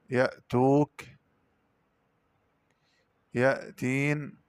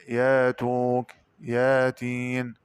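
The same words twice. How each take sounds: First: Said in the usual way. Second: ياتوك and ياتين with long yaa, no stop; slow, smooth "yaa" opening ياتوك, ياتين; hamza as alif. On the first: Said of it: "قرأ بدال الهمزة". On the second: Shown as a demonstration. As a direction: stretch the first vowel of ياتوك and ياتين slowly. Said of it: "ألفا مادية".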